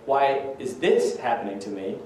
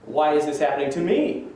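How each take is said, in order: First: "this" picked out as the key word; stress on THIS. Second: "me" lifted at the end as the key word; rising emphasis on the final "me"; stress on ME. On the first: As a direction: lean on "this" in the question. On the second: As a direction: land the question on "me", rising. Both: Shown as a demonstration. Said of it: "the emphasis in the question means a lot".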